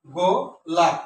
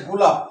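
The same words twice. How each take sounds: First: গোলাপ broken after its first syllable; গোলাপ in two beats with a pause; split into syllables. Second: Said in the usual way. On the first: Shown as a demonstration. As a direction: hold the opening of গোলাপ apart, then say the rest together. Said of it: "লাভটা একসাথে উচ্চারণ করতে হয়". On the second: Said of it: "তখন কি দাঁড়ায়".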